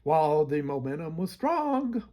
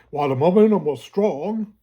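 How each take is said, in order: First: The voice cracks on the phrase. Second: The voice stays firm and strong. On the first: The speaker calls it wrong. "try to say that without my voice cracking" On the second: The speaker calls it right. "say it strong. ... there we go"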